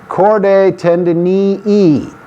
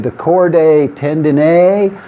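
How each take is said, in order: First: The second word ends in two long E sounds. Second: The two words are made to rhyme. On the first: "You pronounce it as if there are two long E's at the end of the word" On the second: "Many people in the U S try to make two words that rhyme"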